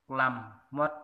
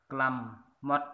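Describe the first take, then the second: Both takes have the same delivery.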